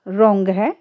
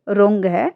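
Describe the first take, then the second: Both takes have the same delivery.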